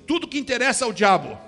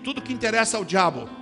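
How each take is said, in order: First: It is said with strong conviction. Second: It is said with weak conviction.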